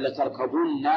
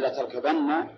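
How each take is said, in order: First: لتركبن as "latarkabunna", u before the doubled n; plural form, damma. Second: لتركبن as "latarkabanna", a before the doubled n; singular form, fatha. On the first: Teacher shows students the plural address, latarkabunna with damma. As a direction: end لتركبن on "-bunna", with a rounded u. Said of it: "ضم ما قبل النون". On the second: Teacher shows students the hypothetical singular, latarkabanna with fatha. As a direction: end لتركبن on "-banna", with an open a. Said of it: "صار لمفرد". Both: Shown as a demonstration.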